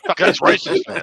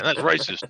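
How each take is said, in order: First: Mock outraged yelp. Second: Said in the usual way. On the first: Real, not acted. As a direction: voice shoots way up in fake shock. Laughing accusation at joke.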